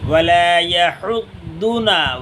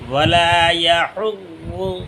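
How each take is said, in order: First: The middle consonant is a d sound. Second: The middle consonant is a z sound. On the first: The speaker calls it wrong. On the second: The speaker calls it right.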